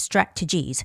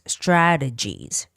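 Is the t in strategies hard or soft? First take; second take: hard; soft. First: The t is a hard, crisp t sound. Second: The t is soft, close to a d sound. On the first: "you can make the hard T sound like strategies" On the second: "some people would like to make it softer T sound"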